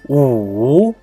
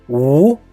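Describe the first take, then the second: First: The pitch dips down and then rises. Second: The pitch rises from mid to high. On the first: "The third tone is U" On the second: "The second tone is U"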